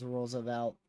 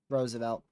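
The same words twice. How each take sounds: First: "Roosevelt" with a stray L, like "rolls-evelt"; weird pronunciation. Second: Said in the usual way. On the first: Real, not acted. Storm chaser fumbling a town name, "Roosevelt" mispronounced as "rolls-evelt". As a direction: slip an L into the first syllable of "Roosevelt". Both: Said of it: "Why did I say it so weird?".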